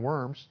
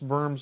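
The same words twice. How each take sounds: First: The word begins with a W sound. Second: The word begins with a V sound. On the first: The speaker calls it wrong. "Sounds better than worms" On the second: The speaker calls it right. "I believe, is how it's pronounced"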